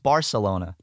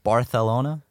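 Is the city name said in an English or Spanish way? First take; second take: English; Spanish. First: The name is said with an English pronunciation. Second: The name is said with a Spanish pronunciation. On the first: The speaker calls it right. "It's Barcelona" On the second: The speaker calls it wrong. "Why do they say it like that?"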